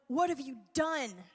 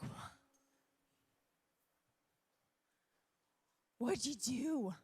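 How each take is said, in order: First: It is said in an angry way. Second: It is said in a way that is not angry.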